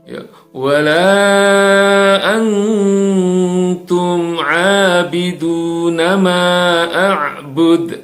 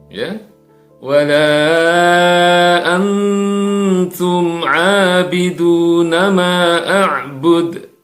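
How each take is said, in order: Both takes have the same delivery.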